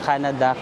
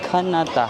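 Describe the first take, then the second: First: It is said with English sounds, Canada. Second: It is said with Korean sounds, Kanata.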